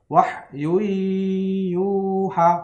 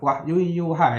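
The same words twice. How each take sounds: First: The nasal hum is held for two beats. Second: The nasal hum is short and rushed. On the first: The speaker calls it right. "harus ada gunahnya selama dua harokat atau dua ketukan" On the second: The speaker calls it wrong. "jangan cepat-cepat. Wahyu yuha itu belum idgham bigunah itu namanya"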